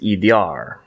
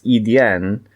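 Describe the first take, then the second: First: The word ends with an r sound. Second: The word ends with an n sound. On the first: This is how northerners say it. "in the north it would be pronounced" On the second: This is how southerners say it. "pronounced in the south as"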